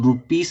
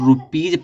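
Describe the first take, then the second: First: The word ends with a hissing s sound. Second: The word ends with a buzzing z sound. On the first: The speaker calls it wrong. "रुपीस नहीं पढ़ा जाता" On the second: The speaker calls it right. "इसको रुपीज पढ़ा जाता है"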